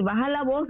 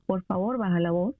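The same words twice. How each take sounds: First: Grito fingido, apenas más fuerte; grito de mentira. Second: Suave y más bajo, con calma; pídelo con serenidad de padre paciente; calmado. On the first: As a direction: imita a un padre que grita sin alzar mucho la voz. (grito leve de ejemplo) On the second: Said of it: "Yo le tengo que decir". (tono tranquilo y más suave) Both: Shown as a demonstration.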